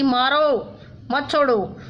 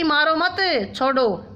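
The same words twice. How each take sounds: First: The pause comes right after 'मारो'. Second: The pause comes right after 'मत'.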